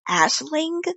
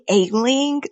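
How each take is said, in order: First: The name has an 'sh' sound in it. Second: The name has no 'sh' sound in it. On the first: The speaker calls it right. "Okay, Ash, Ashling" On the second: The speaker calls it wrong. "I was saying Ailing. Like I wasn't even saying the S"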